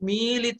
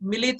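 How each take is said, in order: First: The first vowel 'i' is long. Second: The first vowel 'i' is short. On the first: The speaker calls it right. "मी दीर्घ स्वर है" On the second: The speaker calls it wrong. "ये मिलित नहीं"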